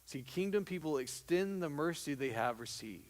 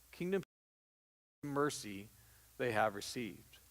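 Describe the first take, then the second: First: Said in the usual way. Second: Kingdom, pause, mercy, pause, they have received, dropping softer; stress with pauses. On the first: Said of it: "repeats the phrase with pauses". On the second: Shown as a demonstration. Preacher drives home the phrase to the congregation, slow and spaced. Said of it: "repeats the phrase slowly with pauses".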